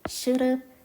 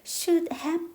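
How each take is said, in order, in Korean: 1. 두 단어가 이어지고 have는 약하게 줄어서 발음돼요. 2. 두 단어 모두 온전히, 따로 발음돼요. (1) "이게 연음이라고 해가지고" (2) "should have pp라고 발음하지 않고"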